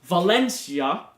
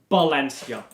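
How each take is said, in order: First: It starts with a V sound. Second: It starts with a B sound. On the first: "So Valencia is pronounced" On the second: "the Spanish V is a B sound"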